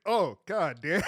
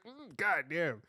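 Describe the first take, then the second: First: Loud, rising, amazed; impressed exclamation. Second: Low appreciative god damn. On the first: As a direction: blurt it out, stunned. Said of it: "you're like". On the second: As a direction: let it roll out appreciatively. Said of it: "You're like". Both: Retold or imitated.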